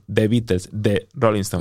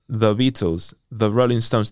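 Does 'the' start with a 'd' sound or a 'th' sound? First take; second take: d sound; th sound. First: 'The' starts with a hard 'd' sound. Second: 'The' starts with a soft 'th' sound. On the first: "they say de" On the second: "when they say T-H-E"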